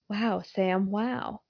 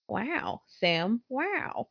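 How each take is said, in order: First: It is read in the speaker's own normal voice. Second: It is said in an imitation of a celebrity's voice.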